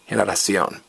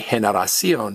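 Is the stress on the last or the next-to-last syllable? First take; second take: last; next-to-last. First: The stress is on the last syllable. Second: The stress is on the next-to-last syllable. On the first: The speaker calls it right. "stress me" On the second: The speaker calls it wrong. "don't stress the next to last vowel. Don't say generación"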